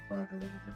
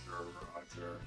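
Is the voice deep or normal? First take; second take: normal; deep. First: It is said in a normal voice. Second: It is said in a deep baritone voice.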